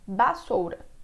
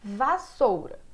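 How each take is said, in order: First: The word begins with a B sound. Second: The word begins with a V sound. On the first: "ele fala bassoura" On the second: "você fala vassoura com V"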